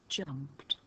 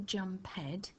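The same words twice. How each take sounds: First: The ending is swallowed into one syllable. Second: The ending is said as a separate syllable. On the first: The speaker calls it right. "we say jumped. We just swallow that e up" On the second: The speaker calls it wrong. "We don't say jumped"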